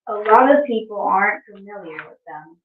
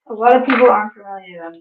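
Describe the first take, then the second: First: It is read at a slower pace. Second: It is read at a fast pace.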